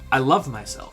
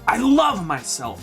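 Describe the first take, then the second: First: It is said in a plain, calm voice. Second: It is said with loud, lively energy. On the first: It is a simple affirmation. "That's an affirmation" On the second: It is an incantation felt with body and focus. "I'll show you with my body and my voice"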